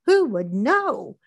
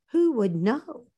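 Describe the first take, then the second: First: "Who would know" very slowly, swooping up and down; slow, savoring singsong on "Who would know"; drawn-out rhetorical question. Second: "know" in a swooping, lilting tune; lilting, conspiratorial "who would know"; sly rhetorical question. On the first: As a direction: stretch "Who" and "know" long. Gleeful plotting, repeated slower for effect. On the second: Gleeful plotting, line repeated for effect. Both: Acted.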